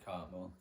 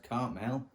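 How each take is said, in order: First: Cartmel with a reduced last syllable; Cartmel as pronounced. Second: Cartmel with a clear "mel" ending; Cartmel as spelled. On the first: Vlogger explaining a village's name, Cartmel said the local way. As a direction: say Cartmel the local way, ending "mul". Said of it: "but pronounced Cartmel". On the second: Vlogger explaining a village's spelling, Cartmel said as written. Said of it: "It's spelled Cartmel". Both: Shown as a demonstration.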